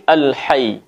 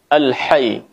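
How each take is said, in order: No difference in how they are said.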